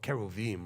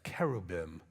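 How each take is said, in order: First: The middle consonant is a V sound. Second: The middle consonant is a B sound.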